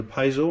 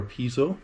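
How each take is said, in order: First: "piezo" said as PIE-zo; first syllable of "piezo" like "pie"; PIE-zo pronunciation. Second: "piezo" said as PEE-zo; first syllable of "piezo" like "pea"; PEE-zo pronunciation. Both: Shown as a demonstration. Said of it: "depending on how you pronounce it".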